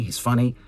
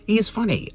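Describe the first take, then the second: First: Said in the usual way. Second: He is funny with He jumping high and hit hard; stress on He. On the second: Shown as a demonstration. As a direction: punch He as if insisting it really is him.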